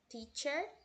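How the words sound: An American accent, with the final R sounded. "Quando a gente pronuncia teacher em americano"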